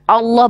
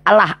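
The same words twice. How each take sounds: First: The L is pronounced thick and heavy. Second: The L is pronounced thin and light. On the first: The speaker calls it right. "Ditafkim bacanya ditebalkan" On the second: The speaker calls it wrong.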